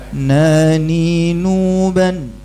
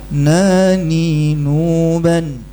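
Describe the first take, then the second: The two takes are said the same way.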